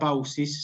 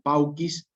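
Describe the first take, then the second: First: The c is soft, not a k sound. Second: The c is hard, like a k sound. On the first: The speaker calls it wrong. "nunca pausis" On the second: The speaker calls it right. "sino pauquis"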